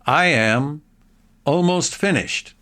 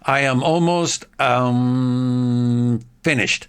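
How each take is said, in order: First: There is a pause between am and almost. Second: There is a pause between almost and finished. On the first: The speaker calls it right. "You could possibly say, ... before almost, you can pause" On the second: The speaker calls it wrong. "you shouldn't say, ... That's really horrible"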